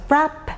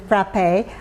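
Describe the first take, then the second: First: The final E is silent; it ends on P. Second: The final E is sounded as a vowel. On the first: "frap with an E, silent E" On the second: "pronounce the E as in frappe"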